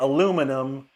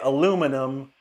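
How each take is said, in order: First: It is said the American way, with four syllables. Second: It is said the American way, with four syllables.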